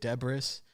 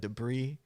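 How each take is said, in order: First: The word is said as it is spelled. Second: The word is said the French way. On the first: The speaker calls it wrong. "you sound like an idiot if you say debris" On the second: The speaker calls it right. "one of those French words"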